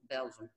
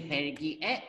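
First: The name is said with English pronunciation. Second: The name is said with Korean pronunciation. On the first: "we already know Belgium" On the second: "If you say 벨기에, they will understand"

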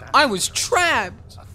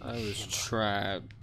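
First: It is said in a lively, comic way. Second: It is said in a sad, downcast way. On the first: Being trapped is treated as a joke. "The other one in the notepad, he just goes" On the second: Being trapped is treated as tragic. "Sounds so sad"

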